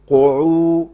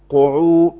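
The two takes are said the same way.

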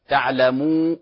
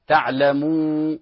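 The two takes are said the same way.

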